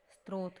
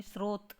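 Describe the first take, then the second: First: स्रोत said as "strot"; extra "t" between s and r in स्रोत; wrong pronunciation. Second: स्रोत said as "srot"; s straight into r in स्रोत; correct pronunciation. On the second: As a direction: clear srot, no first "t" in स्रोत. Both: Shown as a demonstration. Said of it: "तो स्रोत नहीं".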